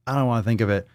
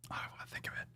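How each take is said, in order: First: Said in the usual way. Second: Barely audible whisper. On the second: Real, not acted. Host to self about an unwelcome thought, whispered. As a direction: whisper it under your breath.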